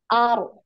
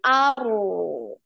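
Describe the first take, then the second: First: The r trills once and is cut off short. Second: The r trills once and the sound flows on. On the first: "sekali ya, getar sekali" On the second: "baru dialirkan"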